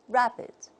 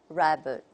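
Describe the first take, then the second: First: British accent, unstressed vowel sounds like short 'i'. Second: American accent, unstressed vowel sounds like 'uh'. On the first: "The British model would be" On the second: "and the American model, something like"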